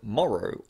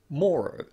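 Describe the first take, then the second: First: The first vowel is the short lot vowel. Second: The first vowel is the rounded north vowel. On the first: "it similarly uses the lot vowel followed by er" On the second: "in some accents, this word is pronounced morrow using the north vowel"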